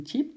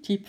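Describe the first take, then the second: First: Said in the usual way. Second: Squeaky chirp. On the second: A narrator's reading. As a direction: squeak tjiep like a little squirrel. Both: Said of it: "met een tjiep, tjiep vragen".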